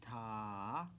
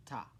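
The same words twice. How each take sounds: First: "Ta" drawn out over two beats; long sustained "Ta"; held half note. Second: "ta" said briefly, on one beat; one quick falling "ta"; short single beat. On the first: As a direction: stretch the vowel of "Ta" long, lifting at the end. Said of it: "Half note". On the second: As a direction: cut "ta" short with no held vowel. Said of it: "we end with a ta". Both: Shown as a demonstration.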